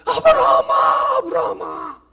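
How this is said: The call sounds urgent, alarmed and full of emotion. The caller is alarmed and desperate to stop the act. The speaker calls it right. "하나님 마음이 돼서 ... 이렇게 읽어야 되는데"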